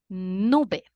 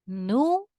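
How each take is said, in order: First: Said in the usual way. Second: "Nube" in two separate pieces, nu-be; split into syllables. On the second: Shown as a demonstration. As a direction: pause between "Nu" and "be". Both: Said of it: "Two syllables".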